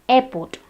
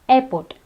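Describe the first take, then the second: Both takes have the same delivery.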